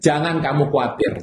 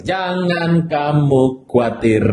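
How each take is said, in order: First: Said in the usual way. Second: "jangan kamu khawatir" said slowly, each word drawn out; slow, deliberate repetition to a neighbour; slow reassurance. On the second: Shown as a demonstration. Pastor leading the congregation to comfort neighbours, slowly. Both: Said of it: "Bilang sama kiri kanan".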